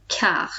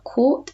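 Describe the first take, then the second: First: "quart" starting with a plain k, silent T; French "quart", k sound and no T on the end; correct French pronunciation. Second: "quart" misread English-style with kw or sounded T; anglicised "quart", not the French sound; wrong pronunciation. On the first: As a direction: say "quart" as "kar", French style. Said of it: "the T is silent on the end". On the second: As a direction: say "quart" as an English reader might. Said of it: "So this is not quart". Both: Shown as a demonstration.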